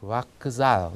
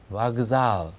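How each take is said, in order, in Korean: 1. z 앞에는 무성자음 k 소리가 옵니다. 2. z 앞에는 유성자음 g 소리가 옵니다. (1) "그대로 쓰여 있는 대로 열심히 읽어보면은 와크잘 이렇게 됩니다" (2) "소리는 와크잘이 아니라 와그잘"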